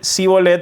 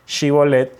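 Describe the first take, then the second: First: It starts with a weak 's' sound. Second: It starts with a strong 'sh' sound. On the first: The speaker is from Ephraim. "la S eh, débil" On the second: The speaker is from Gilead. "ese C H fuerte"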